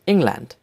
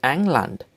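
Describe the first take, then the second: First: Said in the usual way. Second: "England" in German, opening with 'eng' rather than 'ing'; German-style "England" with an 'eh' first vowel; German pronunciation. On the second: Shown as a demonstration. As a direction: say "England" as ENG-lant. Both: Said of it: "names of countries with German accent".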